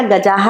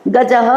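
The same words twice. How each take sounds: First: गजाः with a drawn-out jaa; long final aa. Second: गजः with a brief a before ः; short final vowel. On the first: Teacher shows pupils the plural, long aa in गजाः. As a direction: stretch the second vowel of गजाः. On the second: Teacher shows pupils the singular, short final vowel in गजः. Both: Shown as a demonstration. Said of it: "आ की मात्रा लगा दी".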